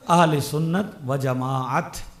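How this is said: Persian linking, ending in a final t. "और अगर फारसी में पढ़ना है तो फिर क्या कहेंगे?"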